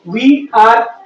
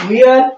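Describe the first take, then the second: First: It is said as two separate full words. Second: It is said as one short contracted word.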